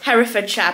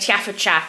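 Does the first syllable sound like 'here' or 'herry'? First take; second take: herry; here. First: The first syllable sounds like 'herry', not 'here'. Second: The first syllable sounds like the word 'here'. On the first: The speaker calls it right. "Sean has informed us" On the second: The speaker calls it wrong. "I was calling it Herefordshire"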